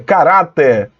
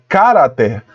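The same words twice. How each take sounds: First: The stress is on the second syllable. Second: The stress is on the first syllable. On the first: The speaker calls it right. "a sílaba tônica é ra" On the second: The speaker calls it wrong. "olha onde foi colocado o acento, no K. Aí fica cara"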